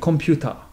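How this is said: Said with a Korean accent. "va devenir"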